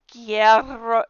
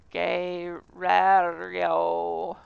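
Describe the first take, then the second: First: "Guerro" blurted loud and clipped short, syllables swallowed; "Guerro" said fast with the middle syllable dropped; botched Spanish. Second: "guerrero" drawn out very slowly with all three syllables and the R's rolled; "guerrero" in full, extremely slow; careful Spanish. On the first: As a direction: rush "Guerro" as a failed try. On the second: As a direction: sound out "guerrero" slowly, rolling the R. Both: Shown as a demonstration. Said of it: "I can't say it".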